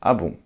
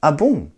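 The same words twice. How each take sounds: First: It sounds calm and merely attentive. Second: It sounds surprised and astonished.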